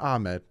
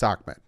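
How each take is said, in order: First: The name is said without a k-like sound. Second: The name is said with a k-like sound. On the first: The speaker calls it wrong. "not Ahmed" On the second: The speaker calls it right. "It's Ahmed, I know there's no C or K in there, but that's just how it's pronounced"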